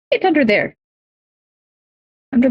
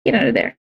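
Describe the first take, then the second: First: Pet voice. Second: Said in the usual way. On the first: Real, not acted. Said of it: "repeats higher to pet". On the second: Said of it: "ushering pet under desk".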